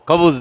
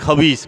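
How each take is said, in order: First: The second vowel is an 'u' sound. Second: The second vowel is an 'i' sound. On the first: It means bread. The speaker calls it right. "খবুস দাও" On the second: It means something wicked, not bread. The speaker calls it wrong. "উচ্চারণে ভুল থাকলে খবিসও কয়"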